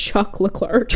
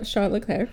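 First: "Chuck Leclerc" with hard CH and R; dad's Americanized name. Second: "Charles Leclerc" with a soft SH opening; attempted proper pronunciation. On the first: Retold or imitated. Daughter quotes dad's name for the driver, bluntly Americanized. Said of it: "my dad refers to him as". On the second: Shown as a demonstration. Host tries the Ferrari driver's name properly, soft French-style pronunciation. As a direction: say "Charles Leclerc" carefully as Sharl Leclair. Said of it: "we just can't do it justice".

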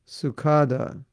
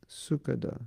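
First: "Sukada" said su-KAH-da, stressed long A after the K; shifted stress. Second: "Sukada" said SU-ka-da, stress up front, short middle vowel; corrected pronunciation. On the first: Teacher mimicking a disciple's name misstressed, "Sukada" as su-KAH-da. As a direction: lean hard on KAH in "Sukada". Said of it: "They put the emphasis on the last syllable". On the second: Teacher correcting a disciple's name, "Sukada" stressed as SU-ka-da. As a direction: hit SU, then a light, quick "kada" in "Sukada". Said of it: "No, it's Sukada". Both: Shown as a demonstration.

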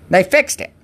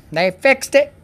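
Both takes have the same delivery.

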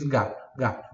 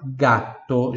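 First: Said in the usual way. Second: Gato with a held double t; slow Italian model. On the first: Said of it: "Que em português". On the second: Shown as a demonstration. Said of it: "doppia consonante". (gato com a consoante dupla)

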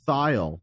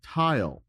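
First: "thile" opening on a voiced TH as in "this". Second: "tile" with a plain T, like kitchen tile. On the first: Podcaster mimics others saying the musician's name, with voiced TH. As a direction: rhyme "thile" with tile, starting with voiced TH. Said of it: "with a voiced T H". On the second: Podcaster recalls his own wrong guess at the name, said as tile. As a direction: say "tile" with a hard T at the start. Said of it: "like a kitchen tile". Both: Shown as a demonstration.

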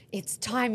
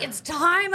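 First: Said in the usual way. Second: Excited echo. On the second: Retold or imitated. Boyfriend repeats, excited.

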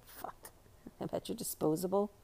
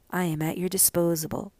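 First: Very soft, under-the-breath self-correction; muttered aside. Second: Said in the usual way. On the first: Real, not acted. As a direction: mutter your slip back to yourself. Muttering over a reading slip.

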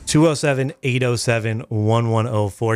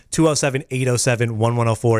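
First: Spelled out slowly digit by digit; slow, clear read of "Two oh seven"; slow number read. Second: Phone number read. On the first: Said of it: "repeats the phone number slower". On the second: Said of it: "reads the phone number". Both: Shown as a demonstration.

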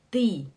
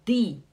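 First: "Die" again with the plain ee of Portuguese; wrong Die. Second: "Die" with the plain ee of Portuguese; wrong Die. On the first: Teacher repeating the wrong "Die" for the class. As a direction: say "Die" once more as a flat ee. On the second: Teacher showing students the wrong "Die". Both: Shown as a demonstration.

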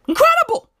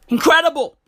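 First: High-pitched, amazed "Incredible"; mock amazement. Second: Said in the usual way. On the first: Real, not acted. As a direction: squeal "Incredible" far above your usual pitch. Repeats word in mock amazement.

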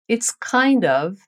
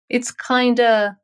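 First: Slow, full It's kind of, each word separate; full form kind of. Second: Slow It's kinda with kind and of merged; contracted kinda. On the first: Teacher modelling the full form It's kind of slowly. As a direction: say kind of fully, not kinda. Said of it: "Essa é a forma completa". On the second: Teacher modelling the contracted It's kinda. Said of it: "dizer kinda". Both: Shown as a demonstration.

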